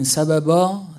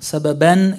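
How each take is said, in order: First: The word ends on a vowel with no n. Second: The word ends with an n sound. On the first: The word is said on its own at a stop. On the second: The word is joined to what follows.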